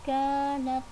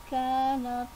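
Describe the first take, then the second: Both takes have the same delivery.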